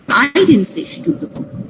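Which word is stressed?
I. The stress falls on the word I. Someone else said it. "It means someone else said that she took the book"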